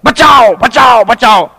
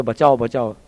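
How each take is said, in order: First: Shouted cries, pitched high; loud mock cry for rescue; calling for help. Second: Low, soft tossed-off mumble of the cry; understated call for help; mild retold cry. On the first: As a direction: yell for help like a crowd at a well. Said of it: "ठहर के पुकार रहे हैं". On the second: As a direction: say it quietly, almost to yourself. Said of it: "लोग बोल रहे".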